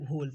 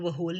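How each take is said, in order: First: The word begins with an h sound. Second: The word begins with a w sound. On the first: The speaker calls it right. "होल पढ़ेंगे" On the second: The speaker calls it wrong. "हम इसको वो होल नहीं पढ़ेंगे"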